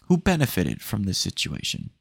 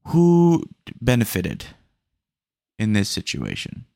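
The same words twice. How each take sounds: First: Said in the usual way. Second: Slow, louder who benefited, stressing who; drawing out who, indignant; emphatic question. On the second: Real, not acted. To the retired customer, a slow emphatic who benefited.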